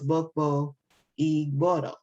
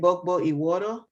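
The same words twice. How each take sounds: First: The last word is said with a 'gb' sound. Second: The last word is said with a 'w' sound. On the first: It is the original form of the word. "even though I know it's" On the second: It reflects the speaker's Cuban lineage. "that's my lineage talking"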